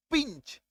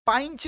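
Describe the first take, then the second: First: पिंच with a short "ih", pitched high. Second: पाइंच with an "eye" sound; wrong vowel. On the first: Teacher correcting to the right word, पिंच with short i. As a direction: say पिंच higher and softer, with short i. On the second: Teacher showing what not to say, पाइंच with "eye". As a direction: misread pinch as पाइंच, "pie-nch". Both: Shown as a demonstration. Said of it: "पाइंच नहीं".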